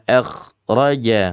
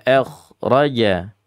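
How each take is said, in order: Both takes have the same delivery.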